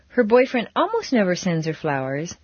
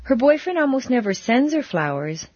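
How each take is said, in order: First: The stress falls on the word almost. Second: The stress falls on the word sends. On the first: Flowers do come once in a while. "but every once in a while he does" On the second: Flowers are given in another way. "but he planted a lot in her garden"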